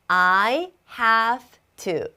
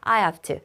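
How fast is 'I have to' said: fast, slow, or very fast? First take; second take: slow; fast. First: It is said slowly with every sound clear. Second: It is said quickly with a weakened v. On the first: "이렇게 정확하게 천천히 얘기해주면" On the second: "빠르게"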